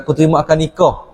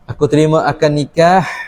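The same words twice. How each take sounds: First: The h in nikah is a plain soft sound. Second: The h in nikah is a harsh throaty sound. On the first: The marriage contract is not valid. The speaker calls it wrong. "Kalau tak bunyi hal bedah, tak sah dia" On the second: The marriage contract is valid. The speaker calls it right. "bunyi nikah"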